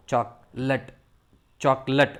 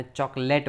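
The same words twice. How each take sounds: First: ચોકલેટ as "CHOK-lut"; correct pronunciation. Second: ચોકલેટ as "chok-LATE"; common local pronunciation. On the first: Teacher showing learners the word, correct pronunciation. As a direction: say ચોકલેટ with a short weak "lut". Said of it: "એનો ઉચ્ચાર થાય". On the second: Teacher showing how we say it, common pronunciation. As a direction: say ચોકલેટ with a full "late" ending. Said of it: "આપણે ચોકલેટ બોલીએ છીએ". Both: Shown as a demonstration.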